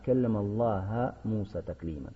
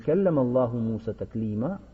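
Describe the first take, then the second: First: The word Allah ends with an a vowel. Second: The word Allah ends with a u vowel. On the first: Moses spoke to God. The speaker calls it wrong. "заменяют «дамму» на «фатху»" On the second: God spoke to Moses. The speaker calls it right. "говорить нужно не «келлям Аллаху Муса таклима»"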